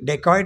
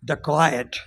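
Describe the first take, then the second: First: The word begins with a 'deh' sound. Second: The word begins with a 'duh' sound. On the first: The speaker calls it wrong. "एक उच्चार माझं चुकलं" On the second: The speaker calls it right. "बघा किती फरक आहे"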